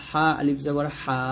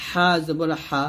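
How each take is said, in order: First: হা with the vowel drawn out one beat, slower; long vowel. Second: Said in the usual way. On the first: Shown as a demonstration. Teacher showing the drawn-out madd vowel to pupils. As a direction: stretch the final হা one measure long. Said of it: "এক লিপ টান দিয়ে পড়বেন". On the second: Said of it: "এরকম একটা জবর থাকলে সেটা হলো হরকত".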